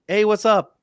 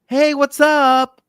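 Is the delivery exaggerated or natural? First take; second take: natural; exaggerated. First: It is said in a plain, natural conversational way. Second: It is said with exaggerated, fluctuating anime-style inflection. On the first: It sounds like ordinary everyday speech. The speaker calls it right. "because that would be more natural" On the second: It copies the inflection of the original dub. The speaker calls it wrong. "they want to mimic the fluctuation in voice as in the Japanese"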